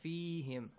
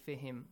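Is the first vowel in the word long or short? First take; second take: long; short. First: The first vowel is long. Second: The first vowel is short. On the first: The speaker calls it right. "Long vowel" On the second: The speaker calls it wrong. "Don't say"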